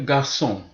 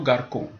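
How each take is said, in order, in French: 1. Le c se prononce s. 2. Le c se prononce k. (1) "Par exemple, garçon" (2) "Si j'enlève la cédille sur le C, je ne dirai plus garçon, mais plutôt garcon"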